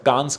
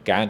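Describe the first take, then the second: First: The word ends with an s sound. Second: The word ends without an s sound. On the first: This is how many people commonly say it. The speaker calls it wrong. "जिसे लोग अक्सर कांस कह देते हैं" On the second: This is the correct pronunciation. The speaker calls it right. "Actually उसका सही pronunciation कैन है"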